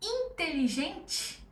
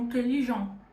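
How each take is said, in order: First: The final T sound is pronounced. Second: The final T is dropped, ending nasal. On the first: The speaker calls it wrong. "Em vez de falar" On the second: The speaker calls it right. "Corta o T no final"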